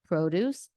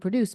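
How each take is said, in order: First: The stress is on the first syllable. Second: The stress is on the second syllable. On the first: It is a noun. "the ones that have emphasis on the first syllable" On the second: It is a verb. "the ones that have the emphasis on the second syllable are verbs"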